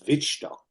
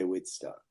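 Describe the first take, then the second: First: The name is said with a German pronunciation. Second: The name is said with an English pronunciation. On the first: "in German. It's pronounced Wittstock" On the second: "in English we just say Whitstock"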